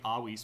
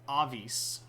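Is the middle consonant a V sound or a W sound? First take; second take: W sound; V sound. First: The middle consonant is a W sound. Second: The middle consonant is a V sound. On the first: The speaker calls it right. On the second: The speaker calls it wrong.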